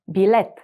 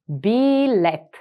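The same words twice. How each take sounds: First: Said in the usual way. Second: Билет drawn out slowly; slow, careful Билет. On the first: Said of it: "teacher models word at normal speed". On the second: Shown as a demonstration. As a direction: stretch Билет out for the learner. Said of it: "teacher repeats word slowly".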